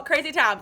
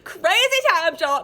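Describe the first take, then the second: First: Said in the usual way. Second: Excited. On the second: Real, not acted. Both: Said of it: "repeated exclamation".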